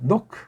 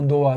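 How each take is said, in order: First: The name ends with a soft k sound. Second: The name ends on a plain vowel. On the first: "아주 부드러운 크 노크" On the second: "헤이트자를 없애고"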